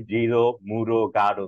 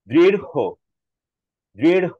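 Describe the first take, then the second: First: দৃঢ় said without the breath, as people usually do; the common flat দৃঢ়; দৃঢ় with no puff of air; plain, unaspirated. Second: দৃঢ় ending in a flap with a loud puff of air; a louder, higher দৃঢ় with aspiration; breathy ঢ় ending. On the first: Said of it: "বাতাসটা বের করি না". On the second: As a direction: push the breath out hard on দৃঢ়. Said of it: "এটা বাতাসটা এভাবে হবে". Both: Shown as a demonstration.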